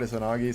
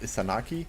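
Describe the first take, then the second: First: The name is said with z and g sounds. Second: The name is said with s and k sounds. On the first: This is the usual form of the name. "the Japanese god Izanagi" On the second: This is how some dialects say the name. "some dialects is pronounced Isanaki"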